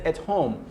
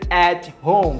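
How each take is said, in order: First: The two words are run together into one. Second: The two words are said separately and clearly. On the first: "vão dizer at home. Juntaram tudo" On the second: "não vão dizer at home"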